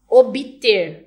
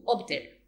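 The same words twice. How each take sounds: First: "Obter" said as obiter, extra i after the b, loud; epenthetic obter. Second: "obter" with a silent-style b, ob-ter, soft; standard obter. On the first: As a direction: insert a vowel: "Obter" becomes o-bi-ter. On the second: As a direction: say "obter" with no added vowel, ob-ter. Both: Shown as a demonstration. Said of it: "não fala o B mudo".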